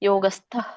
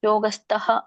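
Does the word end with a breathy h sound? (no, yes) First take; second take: no; yes. First: The word ends without a full breathy h. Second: The word ends with a full breathy h. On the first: The speaker calls it right. "ಯೋಗಸ್ಥ ಅಂತ ಹೇಳ್ಬೇಕು" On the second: The speaker calls it wrong. "ಮಧ್ಯದಲ್ಲಿದ್ದಾಗ ಹೇಳಂಗಿಲ್ಲ"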